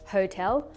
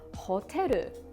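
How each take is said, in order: First: It is said with an English pronunciation. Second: It is said slowly with Japanese syllables.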